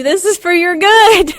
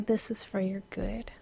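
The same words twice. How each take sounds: First: Higher, louder exasperated; exasperated scold. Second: Soft whisper. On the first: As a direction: snap it at the dogs. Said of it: "all the while I'm going". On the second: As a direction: breathe it gently. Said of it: "heavenly thump". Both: Retold or imitated.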